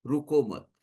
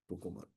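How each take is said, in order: First: Said in the usual way. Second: Very soft, low echo; barely audible, lowered voice; hushed repeat. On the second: Real, not acted. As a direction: drop right down to a near-silent, low murmur. Same advice repeated very softly.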